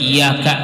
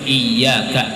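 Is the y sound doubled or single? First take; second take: single; doubled. First: The y sound is said single. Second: The y sound is held doubled. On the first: It means the light of the sun. The speaker calls it wrong. "Jangan dibaca" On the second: It means you alone. The speaker calls it right.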